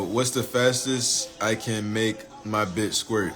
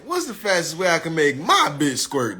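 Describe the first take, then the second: First: It is read in his normal voice. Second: It is read in the asker's imagined accent.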